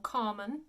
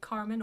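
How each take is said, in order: First: It is said in an English accent from England. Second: It is said in a general English accent. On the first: "or Carmen if you are from England" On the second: "We would say Carmen"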